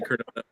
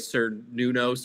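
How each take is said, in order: First: The name begins with a hard K sound. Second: The name begins with an S sound. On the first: The speaker calls it right. "it was not with the hard C" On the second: The speaker calls it wrong. "it was with the S"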